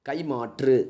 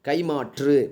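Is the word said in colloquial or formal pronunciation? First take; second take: formal; formal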